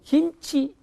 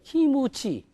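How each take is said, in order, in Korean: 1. 한국식으로 두 음절로 발음합니다. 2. 일본식으로 열린 음절 셋으로 발음합니다. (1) "우리말로 김치" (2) "얘들 발음 못합니다... 풀었으니까. 삼음절이 돼요"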